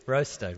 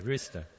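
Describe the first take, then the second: First: ROASTER with an "oh" vowel, as "ROH-ster"; the slipped version of rooster, "Roaster" with "oh"; wrong vowel. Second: ROOSTER with an "oo" vowel, as "ROO-ster"; low, soft corrected "rooster" with long "oo". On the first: Preacher contrasts his accent slip, "oh" vowel in "Roaster". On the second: Preacher corrects his accent slip, "oo" vowel in "rooster". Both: Shown as a demonstration. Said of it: "It's not a roaster".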